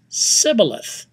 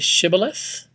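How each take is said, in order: First: The word begins with an s sound. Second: The word begins with an sh sound. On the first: The speaker calls it wrong. "Every time they tried, it came out Sibboleth" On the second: The speaker calls it right. "Can you say Shibboleth?"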